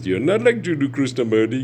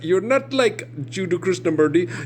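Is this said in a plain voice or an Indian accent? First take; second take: plain voice; Indian accent. First: It is said in the speaker's ordinary accent. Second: It is said in a put-on Indian accent.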